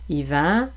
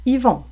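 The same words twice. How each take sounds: First: "Yvan" ending in open nasal "an", rising; "Yvan", final vowel clearly not "on". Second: "Yvon" ending in rounded "on", falling; "Yvon", final vowel clearly not "an"; closed on. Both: Shown as a demonstration. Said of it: "Même chose avec la distinction".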